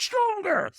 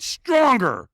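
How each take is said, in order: First: Very high, strained mock scream; retold scream. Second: High, loud retold shout; trainer's urging. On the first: Trainer in firewalker's face, mock scream. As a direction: imitate a screamed command without full volume. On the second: Trainer demands more from firewalker, loud urging. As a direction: push him harder, voice jumping up. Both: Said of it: "so he screamed at me".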